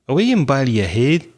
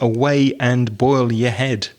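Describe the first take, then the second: First: It is said in a Scottish accent. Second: It is said in a Southern English accent. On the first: "I'll try my Scottish accent out on you" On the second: "translated into Southern English"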